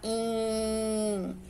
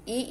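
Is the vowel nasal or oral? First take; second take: nasal; oral. First: The vowel is nasal, as with the nose pinched. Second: The vowel is plain, not through the nose. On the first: "se eu tampar o nariz" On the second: "vai deixar de ser I"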